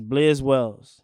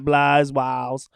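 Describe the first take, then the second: First: The first vowel of the name is short. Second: The first vowel of the name is long. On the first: The speaker calls it right. "It's Blizz Wells" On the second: The speaker calls it wrong. "it's not Blies Wiles"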